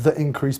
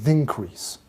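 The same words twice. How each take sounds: First: The two vowels are said separately. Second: The two vowels are run together.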